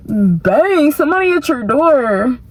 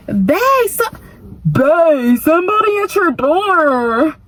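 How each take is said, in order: First: Second try at gay voice. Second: High, sing-song lover's call; mock gay boy voice. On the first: Retold or imitated. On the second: Boyfriend inside calls sweetly that someone's at the door. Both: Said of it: "I don't know how to do a gay boy voice".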